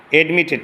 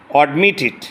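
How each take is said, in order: First: অ্যাডমিটেড opening on "ed"; wrong pronunciation. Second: অ্যাডমিটেড opening on a rounded "od"; correct pronunciation. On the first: Teacher shows students what to avoid, wrong pronunciation. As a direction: say অ্যাডমিটেড as "ed-mi-tit". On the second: Teacher models the word for students, correct pronunciation. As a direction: say অ্যাডমিটেড as "od-mi-tit". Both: Shown as a demonstration. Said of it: "অ্যাডমিটেড না".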